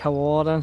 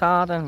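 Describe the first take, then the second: First: The name is said with three syllables. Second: The name is said with two syllables. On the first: This is how the speaker says it. "I say Hawarden" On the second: This is how some other people say it. "some people's like it's Harden"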